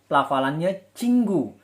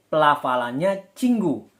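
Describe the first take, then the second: The two takes are said the same way.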